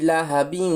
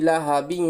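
No difference in how they are said.

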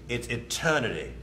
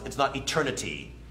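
First: The T sound is dropped. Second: The T sound is clearly pronounced. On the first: The speaker calls it right. "A lot of that is dropped" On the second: The speaker calls it wrong. "that T sound is not, it's not eternity"

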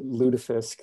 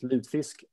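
First: It is said the upper Midwestern American way. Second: It is said the Swedish way, spelled without e. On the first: "Lutefisk is very much the upper Midwestern way of saying this" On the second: "In Swedish, it's lutefisk, L-U-T-F-I-S-K"

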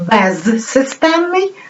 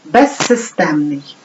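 First: The prefix ends in a clear z sound. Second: The prefix z merges into the s sound. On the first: "Пишемо" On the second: "вимовляємо"

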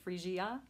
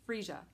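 First: The word ends with a separate 'ee-ah' sound. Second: The word ends without a separate 'ee-ah' sound. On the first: The speaker calls it wrong. "I did like an IA at the end" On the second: The speaker calls it right. "I think it's Freesia"

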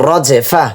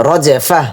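No difference in how they are said.

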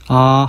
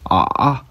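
First: The pitch stays level throughout. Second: The pitch stays low and deep. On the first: "1성은 아 하고 평평한 성조" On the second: "3성은 아 하고 저음, 낮은 소리가 나는 성조"

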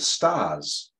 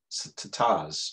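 First: The word is said smoothly, without a stutter. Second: The word is said with a stutter on the T.

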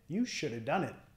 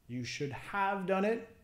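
First: The 'have' is reduced to a weak 'uh' sound. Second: The word 'have' is pronounced in full. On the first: "Vamos a quitar el H, should have, y decir shoulda" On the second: "should have"

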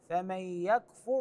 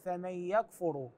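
First: The final r has no vowel after it. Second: The final r is followed by a 'u' vowel. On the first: The speaker calls it right. "الراء في كلمة يكفر ساكنة" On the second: The speaker calls it wrong. "بعضهم يقرأها بالضم يقول فمن يكفر، هذا مو صحيح"

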